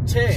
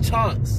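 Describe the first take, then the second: First: It is said with an American vowel sound. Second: It is said with a British vowel sound. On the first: The speaker calls it wrong. "And what do we say?" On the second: The speaker calls it right. "people from Britain, right, when they say things like with the A in it, they'll say"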